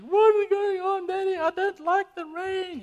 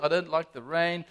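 First: Put-on upset three-year-old's wail, very high; Abby. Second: Said in the usual way. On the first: Father imitates his upset daughter at a rainy party, wailing. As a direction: imitate a small child whining loudly, far higher. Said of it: "Abby was upset, guys. She was saying". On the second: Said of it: "and she was upset".

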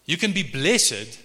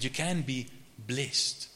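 First: "blessed" in two syllables, bless-ed. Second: "blessed" in one syllable, rhyming with rest. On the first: Preacher explains blessing to congregation, "blessed" said as BLESS-ed. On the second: Preacher contrasts blessing with happiness, "blessed" said as blest. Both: Real, not acted. Same word said in two forms.

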